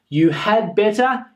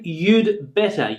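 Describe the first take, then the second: First: The word 'had' is said in full. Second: It is contracted, the d barely audible.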